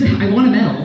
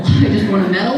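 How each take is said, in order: First: Said in the usual way. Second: I just want a medal said through a laugh, rising on medal. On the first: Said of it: "niece's wish retold". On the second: Retold or imitated. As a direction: giggle through the line. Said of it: "repeated with a laugh".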